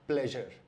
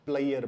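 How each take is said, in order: First: The middle consonant is a 'zh' sound. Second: The middle consonant is a 'y' sound. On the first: The speaker calls it right. "इसका सही उच्चारण है" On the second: The speaker calls it wrong. "बहुत से लोग ... इसको प्लेयर बोलते हैं"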